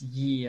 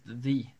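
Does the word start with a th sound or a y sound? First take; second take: y sound; th sound. First: The word begins with a y sound. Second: The word begins with a th sound. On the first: The speaker calls it wrong. "Ye isn't pronounced ye at all" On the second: The speaker calls it right. "It's pronounced the"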